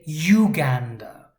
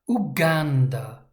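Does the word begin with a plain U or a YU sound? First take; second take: YU sound; plain U. First: The word begins with a YU sound. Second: The word begins with a plain U sound. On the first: The speaker calls it wrong. "We're not going to say Uganda, like YouTube or university" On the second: The speaker calls it right. "This is U followed by G"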